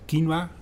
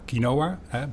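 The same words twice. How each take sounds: First: Quinoa is said with a Latin American pronunciation. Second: Quinoa is said with a Dutch pronunciation. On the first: "That's the pronunciation from Latin America" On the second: "because now we grow it in the Netherlands"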